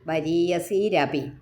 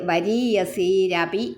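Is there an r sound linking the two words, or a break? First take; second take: r sound; r sound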